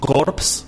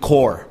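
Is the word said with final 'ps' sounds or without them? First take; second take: with; without. First: The word ends with audible p and s sounds. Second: The word ends without any p or s sound. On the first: The speaker calls it wrong. "los escucho a ustedes decir corpse" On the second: The speaker calls it right. "aunque se escribe a corpse, se pronuncia core"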